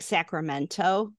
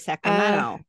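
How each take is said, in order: First: The T sound is clearly pronounced. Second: The T sound is dropped. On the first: "they don't say that" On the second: "They just they lose their T's"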